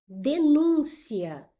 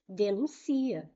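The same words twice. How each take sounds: First: Denúncia read slowly, louder and higher, stress on NÚN; slow emphatic read. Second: Denuncia stressed on the next-to-last syllable, a bit slower. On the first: Teacher announcing the next word, slow and emphatic. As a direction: draw out denúncia, hitting NÚN. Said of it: "Eu digo a denúncia". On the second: Teacher reading the verb form without the accent. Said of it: "Existe essa palavra?". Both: Shown as a demonstration.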